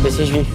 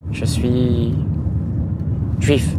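First: The words flow without any hesitant pause. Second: A hesitant pause comes before the final word. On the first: The speaker states it with confidence. The speaker calls it right. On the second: The speaker seems unsure or embarrassed about it. The speaker calls it wrong.

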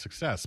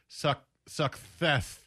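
First: The s sounds come out as a clear s. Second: The s sounds come out as a lisped th. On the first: The speaker calls it right. "I can say it now" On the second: The speaker calls it wrong. "I was lisping it"

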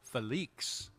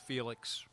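First: The name is said with a French-like swing. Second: The name is said in a plain English way. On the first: "It's got a little swing to it, a little French quality to it" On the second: "for most people, you look at it and you'll say"

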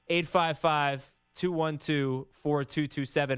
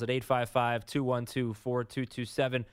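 First: The number is said slowly. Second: The number is said quickly.

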